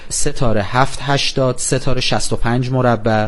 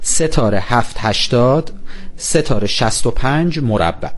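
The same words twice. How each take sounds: First: The code is read at normal speed. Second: The code is read more slowly.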